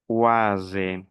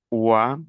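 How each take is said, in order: First: "uase" falling to a voiced z; sounded "uase" ending. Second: "ua" as an open wa, no s; open "ua" ending. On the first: ("uase" con la s sonora) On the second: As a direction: end "ua" on the bare vowel. ("ua" abierto, sin s) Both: Shown as a demonstration. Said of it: "la pronunciación aquí".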